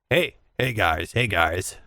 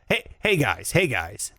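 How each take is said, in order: First: It is said in a put-on deeper voice. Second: It is said in his own normal voice. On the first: "You have a lower voice than me" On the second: "That is your voice"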